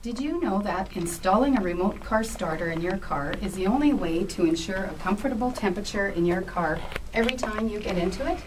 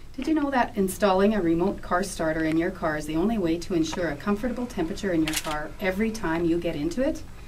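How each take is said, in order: First: It is read at a slower pace. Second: It is read at a faster pace.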